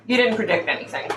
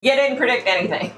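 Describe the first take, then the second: First: Said in the usual way. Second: "You" raised and hit hard, quick; emphatic repeat. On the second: Shown as a demonstration. Vlogger repeating her retort to psychics, stressed emphatic.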